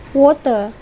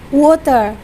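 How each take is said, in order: Both takes have the same delivery.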